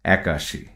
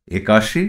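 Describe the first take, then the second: First: একাশি with an open æ at the start; spoken form with æ. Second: একাশি with a closed e at the start; spelling pronunciation with e. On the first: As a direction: say একাশি as "ækashi", lower, softer and falling. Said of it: "উচ্চারণ হবে". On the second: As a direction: read একাশি as written, "ekashi", tone rising. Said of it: "তদ্ভব হবে". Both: Shown as a demonstration.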